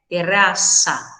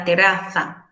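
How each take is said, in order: First: The z is a hissing s sound. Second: The z is a th sound between the teeth. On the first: This is how speakers in the Americas say it. "colocar um som nesse Z aí como se fosse S S" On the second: This is how speakers from Spain say it. "Eles colocam a língua entre os dentes"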